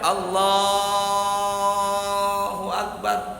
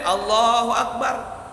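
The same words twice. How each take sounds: First: The phrase is drawn out long. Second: The phrase is said short and quick.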